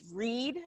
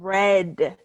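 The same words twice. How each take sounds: First: It uses the present-tense pronunciation of the word. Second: It uses the past-tense pronunciation of the word. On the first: The action happens habitually now. "read for the um, for the present tense" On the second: The action happened in the past. "read for the past tense"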